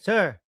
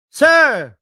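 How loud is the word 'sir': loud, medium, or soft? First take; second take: soft; medium. First: The word is said softly and quietly. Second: The word is said at medium loudness. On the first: "medyo mahina pa yan" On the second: "Medyo nag-medium yung boses"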